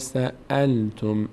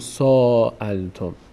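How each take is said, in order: First: The first vowel is short, followed by a glottal stop. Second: The first vowel is drawn out long. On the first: The speaker calls it right. "همزه میچسبه به لام" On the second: The speaker calls it wrong. "اینجا نمیگیم سألتم"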